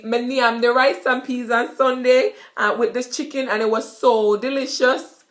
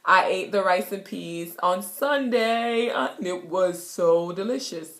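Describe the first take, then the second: First: Jamaican patois. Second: Said in the usual way. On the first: Shown as a demonstration. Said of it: "So basically".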